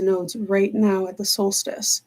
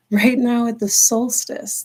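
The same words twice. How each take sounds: First: Said in the usual way. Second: "Right now" lifted and slowed; stress on right now. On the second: Shown as a demonstration. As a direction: lean on "Right now at the solstice" slowly. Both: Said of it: "repeats it slowly with stress".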